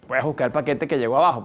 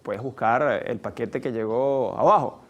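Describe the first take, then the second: First: It is said in a harsh, rude tone. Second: It is said in a kind, polite tone. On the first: The speaker resents the listener for doing nothing. The speaker calls it wrong. "Como lo puedes decir" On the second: It is a friendly request. The speaker calls it right. "Porque tú puedes decir"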